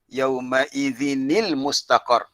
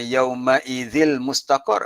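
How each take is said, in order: First: The n joins the next word with an i. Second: The n sound is left out entirely. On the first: The speaker calls it right. "jadi yauma idzini" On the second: The speaker calls it wrong. "tak boleh juga"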